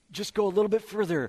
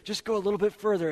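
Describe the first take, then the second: First: Higher, louder, fast coaxing voice; a pushy tempter egging you on. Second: Higher, louder, fast coaxing voice, repeated; an insistent tempter pressing harder. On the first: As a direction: lure them a little further, pushing hard. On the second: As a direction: egg them on once more. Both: Retold or imitated.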